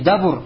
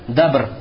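First: The word has a then u as vowels. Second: The word has one a vowel, no second vowel. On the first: The speaker calls it wrong. "Уже будет как не дабур" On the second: The speaker calls it right. "с фатхой, тогда ты должен букву ба произнести с сукуном"

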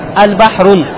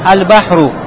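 First: The word ends with an n sound. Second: The word ends with a vowel, no n. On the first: The speaker calls it wrong. "в конце уже ты не говоришь «аль-бахрун»" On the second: The speaker calls it right. "а говоришь как?"

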